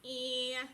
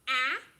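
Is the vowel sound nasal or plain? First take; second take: nasal; plain. First: The vowel is nasal, up in the nose. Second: The vowel is plain, not through the nose. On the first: "kind of up in your nose sound" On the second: "that ah sound that she normally makes"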